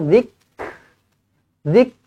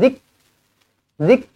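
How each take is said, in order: First: The k is released with a puff of air. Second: The k is released without a puff of air. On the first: The speaker calls it right. "tu ada angin" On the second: The speaker calls it wrong. "dia bukan zik zik"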